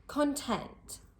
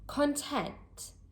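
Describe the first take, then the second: First: The stress is on the second syllable. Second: The same.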